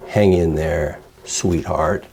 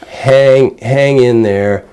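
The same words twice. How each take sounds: First: Soft, low, syrupy pity; softer, lower wrong-way take. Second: Louder, upbeat and firm; bright, sturdy encouragement; the right way. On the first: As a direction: coo it too sweetly, the way not to. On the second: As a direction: cheer her on with steady encouragement. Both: Shown as a demonstration. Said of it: "don't say it like that".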